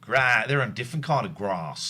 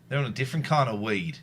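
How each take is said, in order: First: Put-on Australian accent, "grass" with long open a. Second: Put-on Australian accent. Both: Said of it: "I can't do grass in an Australian accent".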